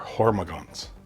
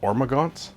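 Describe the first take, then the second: First: The word begins with a clear H sound. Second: The word begins with a vowel, no H sound.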